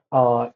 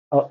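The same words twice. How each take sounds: First: Long "uh", held out; long vowel. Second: Short "uh", cut off quickly; short vowel. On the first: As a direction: stretch "uh" into a sustained open vowel. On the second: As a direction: say "uh" as a brief vowel. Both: Shown as a demonstration. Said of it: "that is the length of the pronunciation".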